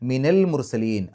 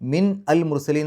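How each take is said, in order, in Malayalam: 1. min, al-mursalin-ലേക്ക് സുഗമമായി ചേരുന്നു. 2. min-നും al-mursalin-നും ഇടയിൽ ഒരു വിരാമമുണ്ട്. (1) "അത് മാറ്റാൻ വേണ്ടിയിട്ട്" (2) "ഒരു പാരായണം മുറിഞ്ഞ പോലെ ഉണ്ടാവും"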